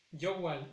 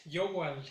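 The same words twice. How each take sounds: First: Said in the usual way. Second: "yowal" slowed down, first syllable YO stressed; slow careful demo. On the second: Shown as a demonstration. Teacher to students, slowly modelling "yowal" with YO stressed. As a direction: spell out "yowal" slowly, leaning on YO. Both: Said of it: "igual va a ser en la primera sílaba".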